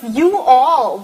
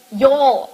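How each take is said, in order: First: "you all" said as two separate words, stress on "you". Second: "Y'all" merged into one syllable; y'all as one word. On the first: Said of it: "this sort of "you all". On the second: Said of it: "So she said". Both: Shown as a demonstration.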